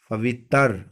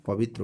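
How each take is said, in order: First: पवित्र ending in "-tar", as "pavittar"; mispronounced ending. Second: Said in the usual way. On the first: Shown as a demonstration. Teacher showing what is wrong, पवित्र said as "pavittar". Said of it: "ये गलत है". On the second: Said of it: "पवित्र होता है".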